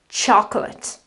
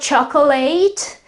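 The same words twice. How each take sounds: First: The stress falls on the first syllable. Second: The stress falls on the last syllable. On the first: The speaker calls it right. "the syllable that uh, um, basically carries the accent is the first syllable" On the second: The speaker calls it wrong. "that's not chocolate, as someone, quite a few people pronounce it. Uh, this is wrong"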